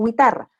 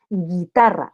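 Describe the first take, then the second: First: GUITARRA as gwi-tarra, with a w glide; U wrongly sounded. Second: GUITARRA said gi-tarra, hard g straight into i; silent U. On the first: Teacher showing what not to say, GUITARRA as gwi-tarra. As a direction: put an audible U into GUITARRA, gwi. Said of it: "no digo guitarra". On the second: Teacher applying the rule, GUITARRA as gi-tarra. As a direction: leave the U out of GUITARRA. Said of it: "no se pronuncia la U". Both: Shown as a demonstration.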